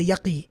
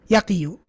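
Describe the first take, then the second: First: The word ends on '-qi' with no '-yu'. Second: The word ends with a full '-yu' syllable. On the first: The speaker calls it right. "We say yaqi" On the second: The speaker calls it wrong. "This is meant to be yaqiyu. ... yaqiyu doesn't sound right"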